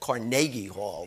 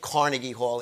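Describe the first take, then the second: First: The name is said the Scottish way. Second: The name is said the New York way. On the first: The speaker calls it right. "the Scots pronunciation and the correct one" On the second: The speaker calls it wrong. "New Yorkers say Carnegie Hall"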